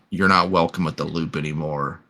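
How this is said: The line is read in an eerily calm way. The speaker calls it right.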